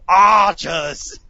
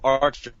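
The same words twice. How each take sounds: First: The word is shouted forcefully. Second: The word is said plainly, without force.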